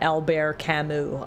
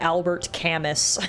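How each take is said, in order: First: The name is said carefully, as first heard. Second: The name is said in a mangled way. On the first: The speaker calls it right. "I would not have pronounced that" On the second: The speaker calls it wrong. "completely butchered"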